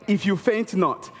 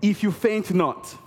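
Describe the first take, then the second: No difference in how they are said.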